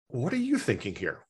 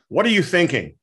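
First: It sounds open, like a genuinely curious question. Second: It sounds accusing, like a dismissive statement.

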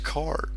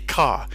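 First: The final R sound is clearly pronounced. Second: The final R sound is dropped. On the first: "It's car. There's an R" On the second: "typically, you don't say your R"

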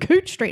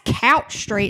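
First: The vowel sounds like the one in hooch. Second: The vowel sounds like the one in couch. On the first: This is how the locals say the name. "no, it's Cooch Street" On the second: An outsider reads the name as spelled. "no, that's Couch Street"

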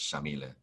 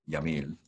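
First: The name begins with an SH sound. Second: The name begins with a Y sound. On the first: This is the Argentinian way of saying it. "if you're from Argentina, the way she pronounces it, it's Shamile. S-H sound with the Y" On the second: This is the Puerto Rican way of saying it. "You would pronounce it Yamil if you're from Puerto Rico like me"

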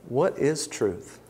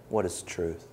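First: It sounds like a sincere, curious question. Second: It sounds like a scornful, mocking remark.

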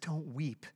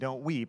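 First: It is said in a gentle, comforting tone. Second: It is said in a dismissive, impatient tone.

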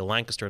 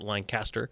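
First: The name is said with the local pronunciation. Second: The name is said with an outsider's pronunciation. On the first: The speaker has lived there. The speaker calls it right. "you'll know I've been to Lancaster and lived there, if I say Lancaster" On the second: The speaker has not lived there. The speaker calls it wrong. "not Lancaster"

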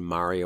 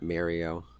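First: The first syllable sounds like 'mar'. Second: The first syllable sounds like 'Mary'. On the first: The speaker calls it right. "congratulate all of us on saying Mario" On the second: The speaker calls it wrong. "not Mario"

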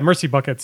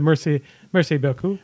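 First: It is pronounced like English words. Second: It is pronounced with French sounds. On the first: The speaker calls it wrong. "mispronounced the entire" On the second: The speaker calls it right. "instead of Merci beaucoup"

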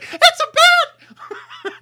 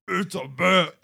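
First: It is said in a high-pitched voice. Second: It is said in a deeper voice.

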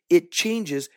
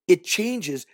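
The two takes are said the same way.

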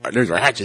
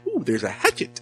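First: It is said in a flat, plain tone. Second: It is said in a delighted, pleased tone.

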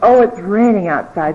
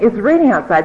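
First: It sounds gloomy and depressed. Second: It sounds lively and energetic.

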